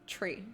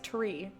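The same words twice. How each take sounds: First: The word starts with a ch sound. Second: The word starts with a plain t sound. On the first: "an aspirated C H. Ch" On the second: "I can say it if I really focus"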